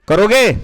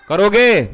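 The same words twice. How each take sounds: Both takes have the same delivery.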